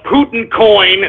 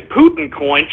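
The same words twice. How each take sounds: First: Said in the usual way. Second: Rising, disbelieving repeat of Putin coin?; incredulous echo. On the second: Shown as a demonstration. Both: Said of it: "Shut up with the freaking Putin coin".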